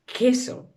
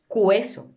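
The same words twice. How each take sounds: First: "queso" as keso, u silent; prononciation correcte. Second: "cueso" with the u sounded, kweso; prononciation fautive. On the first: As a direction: say "queso" with a plain k, no w. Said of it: "decimos queso". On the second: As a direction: show the mistake "cueso" as kwe-so. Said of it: "No decimos cueso". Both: Shown as a demonstration.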